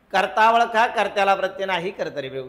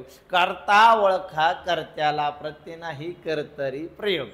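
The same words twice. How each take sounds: First: Brisk rattle through the rule, dropping at the end; quick rule drill. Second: Stretched-out rule, sinking toward the end. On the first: Teacher drilling the class on the rule, quick recital. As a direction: run through it quickly in one go. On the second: Same rule repeated slowly for class. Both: Shown as a demonstration.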